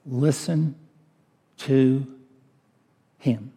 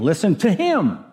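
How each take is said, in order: First: Said in the usual way. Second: Listen to HIM, him pushed higher and louder, falling; preacher hammering the word him home to the congregation; stress on HIM. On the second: Shown as a demonstration. Preacher stressing him to the congregation, emphatic. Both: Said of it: "is emphatic".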